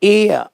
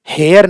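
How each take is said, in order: First: The word starts with a vowel sound. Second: The word starts with an h sound. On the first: The speaker calls it right. "जो हवा का उच्चारण होता है एयर का वैसा" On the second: The speaker calls it wrong. "नहीं"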